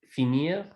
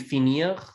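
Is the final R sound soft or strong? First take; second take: soft; strong. First: The final R is soft and light. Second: The final R is strong and harder. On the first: "a lot of these R's are a lot softer" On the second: "I could pronounce it stronger"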